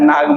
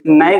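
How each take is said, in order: First: The vowel is a long open 'aa' sound. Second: The vowel is a short 'a' as in 'cat'. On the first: The speaker calls it wrong. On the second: The speaker calls it right.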